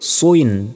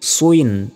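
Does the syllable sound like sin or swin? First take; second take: swin; swin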